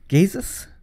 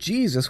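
First: The name starts with a soft 'zh' sound. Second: The name starts with an English 'j' sound. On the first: "in Portuguese they would call him Jesus" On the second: "English speakers call him Jesus with a J"

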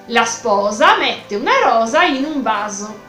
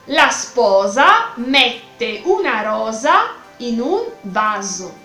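First: The sentence is spoken at a faster pace. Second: The sentence is spoken at a slower pace.

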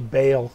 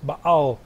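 First: Baal is said the usual American way. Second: Baal is said a different, non-American way. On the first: The speaker calls it wrong. "in America, you usually say Baal" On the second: The speaker calls it right. "that's the way it's supposed to be pronounced"

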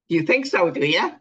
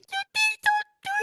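First: It is said in a normal voice. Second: It is said in a squeaky helium voice.

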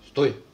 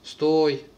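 First: The word is said in a sharp, forceful tone. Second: The word is said in a calm, even tone. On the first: It is a firm order to stop. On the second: It is a simple request to stop.

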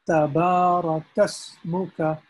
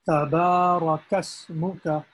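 First: The two words run together smoothly. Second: The two words run together smoothly.

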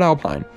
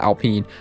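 First: The name is said with an American pronunciation. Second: The name is said with a French pronunciation. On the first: "here in America, we call it Alpine" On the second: "maybe the French call it Alpine"

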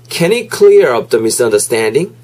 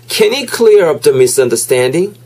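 No difference in how they are said.

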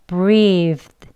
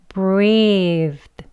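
First: The word is said at normal speed. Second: The word is said slowly and drawn out.

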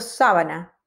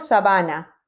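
First: The stress is on the first syllable. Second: The stress is on the second syllable. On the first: A bed sheet. "Sábana es esdrújula" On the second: A grassland plain. "La sabana en África"

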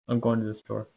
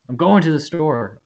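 First: It is said in a plain, neutral way. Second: It is said in a hostile, hurtful way.

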